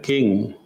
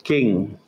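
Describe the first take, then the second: First: King with a strong puff of air on k; aspirated k. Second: King with a k and no puff of air; unaspirated k. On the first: Teacher showing American aspirated King. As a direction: breathe out on the k of King. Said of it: "you say king". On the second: Teacher contrasting English king without aspiration. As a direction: say king with no breath on k. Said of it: "You don't say". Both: Shown as a demonstration.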